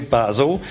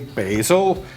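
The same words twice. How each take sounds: First: It is said with a British accent. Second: It is said with an American accent.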